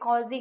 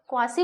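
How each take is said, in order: First: The word begins with a plain 'k' sound. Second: The word begins with a 'kw' sound. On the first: The speaker calls it right. "कॉजी कुछ ऐसे करके बोला जाता है" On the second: The speaker calls it wrong. "मैं इसको क्वासी बोल रही हूँ"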